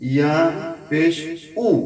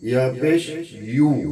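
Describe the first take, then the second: First: The last syllable is a plain oo vowel. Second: The last syllable starts with a y sound. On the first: The speaker calls it wrong. "অনেকে ইয়া পেশ উ এরকম বলি না" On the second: The speaker calls it right. "ইয়ার উচ্চারণ হবে ইয়া পেশ ইউ"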